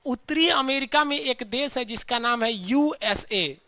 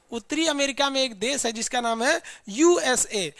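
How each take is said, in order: First: Slow, deliberate teacher explanation; slow and careful. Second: Said in the usual way. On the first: Shown as a demonstration. Teacher slowing down so students catch it. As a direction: spell it out slowly for the class. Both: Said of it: "ध्यान से देखिए।".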